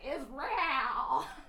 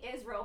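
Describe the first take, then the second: First: The word is said in an intense, showy way. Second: The word is said in a plain, ordinary way. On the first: "but being like, Israel. ... it's so intense. ... So fancy" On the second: "It was like a total normal. It was like saying Israel"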